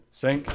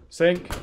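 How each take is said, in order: First: Said in the usual way. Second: "Sink." higher and louder, disbelieving; louder outraged "Sink."; incredulous repeat. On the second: Real, not acted. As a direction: fire "Sink." back as if it can't be right.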